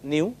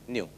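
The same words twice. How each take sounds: First: The vowel is split into two sounds, 'ee-oo'. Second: The vowel is one smooth 'you' sound. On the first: The speaker calls it wrong. "many of you try to say as if it is E U. It is not E U" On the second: The speaker calls it right. "it is you"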